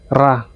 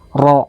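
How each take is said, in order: First: The sound is plain and thin. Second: The sound is slightly thickened and dark. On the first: The speaker calls it wrong. "Jangan ra" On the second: The speaker calls it right. "cuma agak ditebalin dikit aja"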